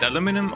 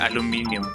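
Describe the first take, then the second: First: The word is said with four syllables. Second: The word is said with five syllables. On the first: "some people do say aluminum" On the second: "I do tend to say aluminium"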